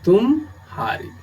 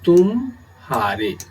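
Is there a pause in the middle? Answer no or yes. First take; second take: yes; yes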